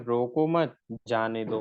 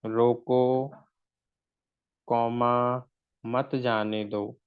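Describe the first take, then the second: First: "रोको मत" as one phrase, a short pause, then "जाने दो"; pause after मत. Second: "रोको" set apart by a long pause, then "मत जाने दो" slowly; pause after रोको. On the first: Teacher moves the comma to change the meaning, pausing after "मत". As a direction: join "मत" to "रोको" and break before "जाने दो". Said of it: "इसी कॉमा को हम कहाँ लगा रहे थे". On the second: Teacher shows students the comma, pausing right after "रोको". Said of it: "यहाँ आपका जो कॉमा आ रहा था". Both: Shown as a demonstration.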